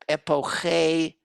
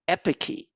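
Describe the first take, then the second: First: The word is pronounced in a Greek-style way. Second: The word is pronounced in an anglicized way. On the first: "epoche is probably what it sounded like in Athens" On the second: "That's the anglicized pronunciation"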